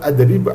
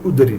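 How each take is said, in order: First: The word begins with an a vowel. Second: The word begins with a u vowel. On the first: "Et non pas adrib" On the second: "ou udrib"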